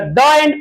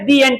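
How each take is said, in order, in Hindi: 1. 'The' को छोटे 'uh' स्वर से बोला जाता है। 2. 'The' को लंबे 'ee' स्वर से बोला जाता है। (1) "द एंड पढ़ाएगा"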